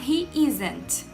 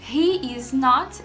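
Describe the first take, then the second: First: The words is and not merge into isn't. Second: The words is and not are said separately. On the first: "forma contraída da negativa" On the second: "em vez de falar he is not"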